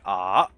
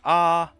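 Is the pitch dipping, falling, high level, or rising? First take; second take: dipping; high level. First: The pitch dips down then comes back up. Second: The pitch stays high and level. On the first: "third tone is like ah, which is like there's a there's a divot in the middle" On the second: "The first tone's like"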